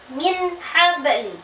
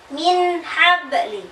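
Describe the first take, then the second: First: The n is short, clear and unnasalized. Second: The same.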